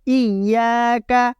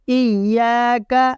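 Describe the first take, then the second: Both takes have the same delivery.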